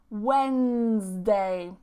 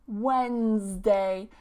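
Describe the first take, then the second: First: The D sound in the middle is silent. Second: The same.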